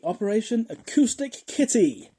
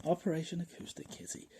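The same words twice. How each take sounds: First: Higher, much louder title reveal; grand announcement. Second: Softer, slightly higher title repeat; understated repeat. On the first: Comedian unveils absurd CIA fact, grand announcement. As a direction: announce it with loud fanfare. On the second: Comedian savours the absurd title, understated repeat. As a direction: say the title again, quietly savouring it. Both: Real, not acted.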